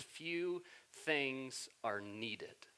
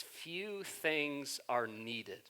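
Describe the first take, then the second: First: "Few things are needed" said slowly, soft and low, leaning on "needed"; stress on needed. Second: "few things are needed" very slow and soft, weight on "needed"; stress on needed. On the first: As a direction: linger on "needed" to make the point. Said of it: "notice Jesus' choice of words". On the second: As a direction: land "needed" as the key word. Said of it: "He doesn't say few things are important". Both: Shown as a demonstration.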